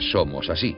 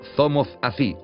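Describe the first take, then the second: First: The s sounds are pronounced with an s sound. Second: The s sounds are pronounced with a th sound. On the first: "en vez de" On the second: "cambiamos la S por la Z"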